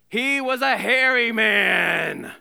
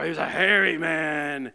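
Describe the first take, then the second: First: It is read in a plain voice. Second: It is said in a gruff put-on voice.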